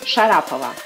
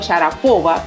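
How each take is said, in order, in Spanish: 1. La sílaba tónica está en la segunda sílaba. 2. La sílaba tónica está en la tercera sílaba. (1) "es Sharapova" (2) "Es común pronunciar su apellido Sharapova, pero no es así"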